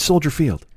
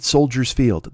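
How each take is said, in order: First: Soldier Field with no s on Soldier; correct name. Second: Soldiers Field with an added s; mock the mistake, Soldiers Field with an s; wrong name. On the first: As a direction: say Soldier Field cleanly, singular. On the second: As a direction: Soldiers Field, the extra s marked. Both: Shown as a demonstration. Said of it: "people will still call it Soldiers Field".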